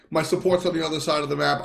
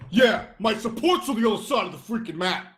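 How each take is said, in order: First: Said in the usual way. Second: Higher-pitched sarcastic whine, put on; mock sarcastic. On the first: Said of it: "I've graciously taken something". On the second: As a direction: act out a resentful, sarcastic admission. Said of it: "people think I'm being sarcastic".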